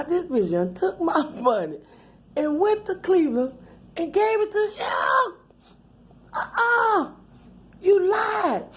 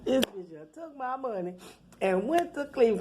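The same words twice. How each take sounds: First: Building outrage. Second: Softer, under the breath; muttered disbelief. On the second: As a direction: mutter it to yourself, stunned. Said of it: "I was like". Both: Retold or imitated.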